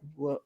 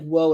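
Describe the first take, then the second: First: It sounds uncomfortable and put off. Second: It sounds pleasantly impressed and approving.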